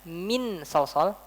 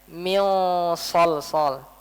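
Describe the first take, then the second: First: The n sound is fully clear. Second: The n sound is blurred and nasal. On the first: The speaker calls it wrong. "Saya nggak baca min sol sol" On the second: The speaker calls it right. "Nunnya enggak jelas. Disamar-samarkan"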